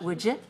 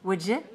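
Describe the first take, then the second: First: The two words are run together as one. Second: The two words are run together as one.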